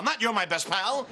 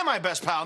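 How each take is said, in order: First: Said in the usual way. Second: MY stressed, falling pitch. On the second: Shown as a demonstration. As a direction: lean hard on "my" in "my best pal".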